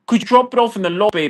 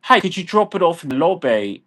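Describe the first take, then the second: First: Higher, rushed and snippy; fast mocking request. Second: Said in the usual way. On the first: Ranting about delivery drivers, quick mocking request. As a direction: rattle it off pointedly. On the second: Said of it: "this is the kind of shit".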